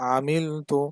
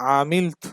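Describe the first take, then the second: First: The word ends on a final vowel. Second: The word ends on a cut-off consonant. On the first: The reader continues without stopping. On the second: The reader stops on this word.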